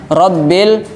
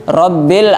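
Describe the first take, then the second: Both takes have the same delivery.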